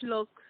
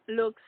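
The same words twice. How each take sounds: First: "look" read first, singular, then fixed; misread word. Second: "looks" said as the fix for "look"; corrected word. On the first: Narrator trips on "look" and corrects it. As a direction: says "look" before correcting to "looks". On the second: Narrator repeats the line with "looks". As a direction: put the plural "looks" right. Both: A narrator's reading.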